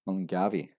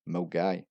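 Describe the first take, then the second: First: The name is read out letter by letter. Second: The name is said in its local form. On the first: The speaker calls it wrong. "we have the infamous Mungavi" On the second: The speaker calls it right. "which is actually pronounced as Milgai"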